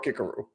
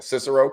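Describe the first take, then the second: First: The name begins with a hard K sound. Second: The name begins with a soft, non-K sound. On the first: This is how it was said in Cicero's time. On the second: This is the later, modern way of saying it.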